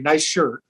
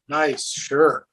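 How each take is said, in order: First: It is said sincerely, as a real compliment. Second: It is said sarcastically, as a mocking remark.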